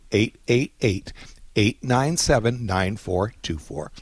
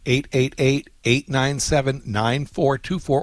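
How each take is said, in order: First: It is said more slowly. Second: It is said at a normal pace.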